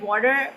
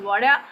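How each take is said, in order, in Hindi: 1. अमेरिकी उच्चारण, अंतिम r बोला गया। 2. ब्रिटिश उच्चारण, अंतिम r नहीं बोला गया। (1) "American कहेंगे water" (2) "British कहेंगे water"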